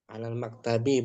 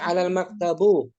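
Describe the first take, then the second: First: The last word ends in an i vowel. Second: The last word ends in a u vowel. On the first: The speaker calls it right. "Mesti kasrah" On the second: The speaker calls it wrong. "Nggak boleh ya"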